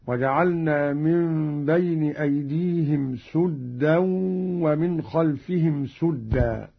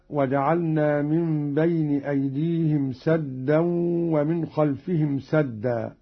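First: سدا said "suddaa" both times, with u; sin with damma. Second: Said in the usual way. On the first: Shown as a demonstration. Teacher demonstrating Qalun's reading, both سدا with damma on sin. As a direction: round the vowel of سدا to a short u. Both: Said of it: "بضم السين في الموضعين".

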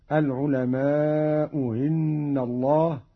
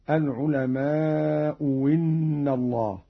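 First: العلماء إن with the hamza of إن eased toward a y, no full stop; softened second hamza. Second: العلماء إن said "al-ulama'u winna", with a w; hamza turned to waw. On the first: Teacher showing Qalun's first option, hamza of إن softened. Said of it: "بتسهيل الهمزة الثانية". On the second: Teacher showing Qalun's second option, إن begun with waw. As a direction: replace the hamza of إن with a clear w. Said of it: "أو إبدالها واوا". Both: Shown as a demonstration.

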